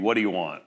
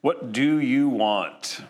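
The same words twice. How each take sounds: First: It is said in a New Jersey accent. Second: It is said in a plain accent.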